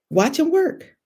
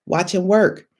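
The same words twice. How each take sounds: First: High, lifted with a rising end; an exclamation of praise that climbs on work; excited rise. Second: Said in the usual way. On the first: Acted. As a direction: sing it upward with joy. Refrain repeated, climbing.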